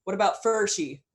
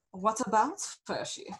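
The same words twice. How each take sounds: First: Louder, higher call from the crowd; hunter's challenge. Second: Lady leader's retort. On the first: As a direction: throw a challenge at the leader. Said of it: "the hunter says". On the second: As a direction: toss the question back, unhurried and lofty. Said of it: "she says". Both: A narrator's reading.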